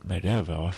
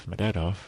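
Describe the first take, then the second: No difference in how they are said.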